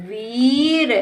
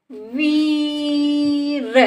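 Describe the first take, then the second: First: वीर joined, shorter rising ee; blended word. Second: वीर with long level वी, then र; sounded out. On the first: Teacher blends the word for a child, joined up. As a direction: run वीर into one word. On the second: Teacher sounds out the word for a child, stretched. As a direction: stretch वीर apart slowly. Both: Shown as a demonstration. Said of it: "इस तरह से बेटा हम शब्दों को".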